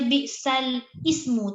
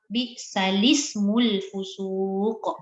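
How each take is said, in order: First: The l is cut off before a separate ismu. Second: The l takes an i and runs into smu. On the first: The speaker calls it wrong. "tak boleh baca bi'sal ismu, tak boleh hidupkan ismu tu" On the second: The speaker calls it right. "dia kena baca dengan baris lam"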